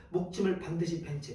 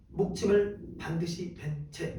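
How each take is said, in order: First: Said in the usual way. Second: 목침을 drawn out slowly and weighted, each word spaced; 목침을 lingered over, unhurried recitation; slow emphatic reading. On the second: Shown as a demonstration. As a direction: read 목침을 반드시 벤 채 slowly, leaning on 목침을. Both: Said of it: "오케이, 봐, 보세요".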